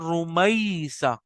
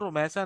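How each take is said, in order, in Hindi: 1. बीच का स्वर एक हल्का ग्लाइडिंग डिफ़थॉन्ग है। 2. बीच का स्वर सादा स्वर है, इसमें कोई ग्लाइड नहीं है। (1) "है वो है रुमैसा" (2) "अब वो रुमैसा नहीं है असल में"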